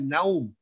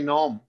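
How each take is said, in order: First: नौम with an open a vowel, "nawm"; correct pronunciation. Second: नौम with a rounded o vowel, the mistake; wrong pronunciation. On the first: Teacher demonstrates the correct form, नौम with zabar. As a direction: say नौम with zabar on the noon, then waw. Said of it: "नून के ऊपर जबर है". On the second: Teacher demonstrates the common mistake, नौम with pesh. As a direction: say नौम as "naum" with pesh on the noon. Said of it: "नून के ऊपर पेश लगा देते हैं". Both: Shown as a demonstration.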